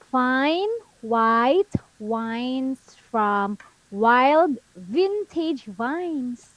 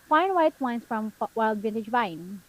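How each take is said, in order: First: The phrase is read at a slow pace. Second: The phrase is read at a fast pace. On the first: "let's read it again slowly" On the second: "one more time, faster"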